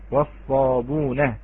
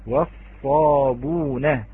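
First: والصابون said slowly without the hamza, wasabuna; Warsh reading. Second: والصابون drawn out very slowly with no hamza, wasabuna; Warsh reading. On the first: Teacher repeating the word for students. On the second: Teacher demonstrating Warsh's reading of والصابون. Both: Shown as a demonstration. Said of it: "فقرأت".

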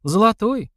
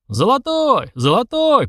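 First: High, disdainful echo; scornful query. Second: High, repeated crowd calls; crowd shouting. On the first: Sister sneering at the proposed stake, scornful and high. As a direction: throw it back as a contemptuous question. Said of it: "презрительно сморщившись, переспросила та". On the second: Onlookers backing the demanded stake, shouting high. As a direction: take up the cry in a high voice. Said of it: "поддержал несколько голосов". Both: A narrator's reading.

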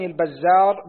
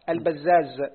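First: البزار ending in r, al-bazzār; final ra. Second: البزاز ending in z, al-bazzāz; two zays. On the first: Student reading names to his teacher, البزار ending in r. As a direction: close البزار on a tapped ر. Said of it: "بالراء المهملة في آخره". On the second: Student repeating for his teacher, البزاز ending in z. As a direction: close البزاز on a buzzing ز. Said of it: "فهو بزايين". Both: Shown as a demonstration.

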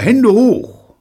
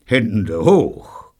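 First: Loud, high hold-up shout; sharp high yell; shouted command. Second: Mildly growled command; restrained, grim hold-up order. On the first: Acted. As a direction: call it out like an ambush. Imagined surprise command, called out. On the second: A narrator's reading. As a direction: growl it grimly, without shouting. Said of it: "knurrte Neil grimmig".

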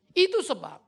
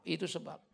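First: "Itu sebab" said firmly and loud, falling on "itu"; firm, punchy "itu sebab"; emphatic. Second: "itu sebab" dropped much softer and lower, like an aside; quiet echo of "itu sebab". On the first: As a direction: lay it down with weight. Repeats phrase, first emphatic. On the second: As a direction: murmur it back to yourself. Repeats phrase, second as echo. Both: Shown as a demonstration.

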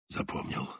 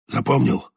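First: Breathy whispered confirmation. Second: Said in the usual way. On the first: A narrator's reading. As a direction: whisper it close to the ear. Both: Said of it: "Только шёпотом".

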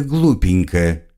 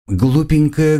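First: Slow mocking drawl. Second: High teasing lilt; mock the word lightly; mocking sing-song. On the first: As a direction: draw the word out slowly. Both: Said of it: "продолжила его слова девушка".

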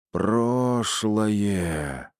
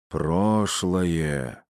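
First: Creaky seance medium voice, drawn out; скрипучий голос. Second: Sepulchral trance voice, drawn out; загробный голос. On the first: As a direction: croak it out in a trance. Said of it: "проскрипела женщина". (скрипучим голосом медиума в трансе) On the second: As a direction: intone it like a seance medium. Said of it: "за могильным голосом произнесла". (загробным голосом прорицательницы) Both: Acted.

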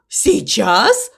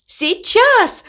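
First: Puzzled question with a rising end; surprised question. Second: High-pitched, ringing exclamation; excited cry. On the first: Crow echoing the cow's announcement, surprised question. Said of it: "удивился ворон". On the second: Cow announcing her big moment, excited cry. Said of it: "закричала мама Му". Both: A narrator's reading.

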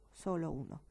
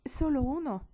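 First: Said in the usual way. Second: Incredulous. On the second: Acted. Stasia's retort, repeated plainly later.

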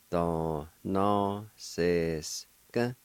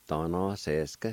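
First: Da, na, se, sk drawn out evenly; measured teaching pronunciation; slow syllable demo. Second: Said in the usual way. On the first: Shown as a demonstration. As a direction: sound it out part by part. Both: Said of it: "It's pronounced like this".

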